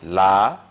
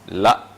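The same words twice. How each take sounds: First: The first vowel is drawn out long. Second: The first vowel is short.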